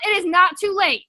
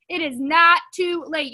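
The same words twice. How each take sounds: First: Said in the usual way. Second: "not" leaned on hard, the whole line slowed; slow emphatic repeat. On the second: Shown as a demonstration. Coach urging the team, slow with stress on "not". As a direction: drag it out and land hard on "not". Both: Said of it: "repeats the phrase for emphasis".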